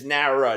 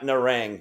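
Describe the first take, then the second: First: The syllables end in a vowel, with no 'ng'. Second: An extra 'ng' sound follows the syllables. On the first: The speaker calls it right. "It's Nara" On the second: The speaker calls it wrong. "not Narang. There's no N before the"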